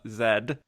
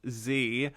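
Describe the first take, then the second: First: The letter is said as 'zed'. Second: The letter is said as 'zee'.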